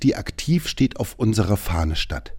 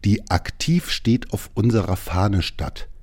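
First: The sentence is spoken at a normal pace. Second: The sentence is spoken slowly.

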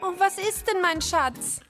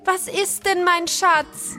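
First: It is said quietly. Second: It is said loudly.

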